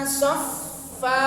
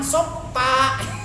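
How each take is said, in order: First: The consonant is a fricative with air released. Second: The consonant is a stop with closed lips. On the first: The speaker calls it right. "keluarkan anginnya, jangan ditahan" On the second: The speaker calls it wrong. "masih sering teras. ... ini nempel bibirnya, jangan ditempelin ya"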